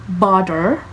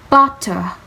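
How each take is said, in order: First: The middle T sounds like a soft D. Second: The middle T sounds like a clear T. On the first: "on Americans" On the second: "British it's spelled it's pronounced butter"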